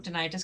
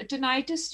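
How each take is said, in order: First: Tinnitus said ti-NIGH-tus, long "eye" in the middle; the other way to say it. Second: Tinnitus said TIN-i-tus, stress on the first syllable; one way people say it. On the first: Doctor showing viewers the second pronunciation, tinnitus as ti-NIGH-tus. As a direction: say tinnitus as tuh-NIGHT-us, stress on the second syllable. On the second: Doctor showing viewers one pronunciation, tinnitus as TIN-i-tus. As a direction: say tinnitus as TIN-uh-tus, short flat i in the middle. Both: Shown as a demonstration. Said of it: "मैं तो tinnitus इसको pronounce करती हूँ".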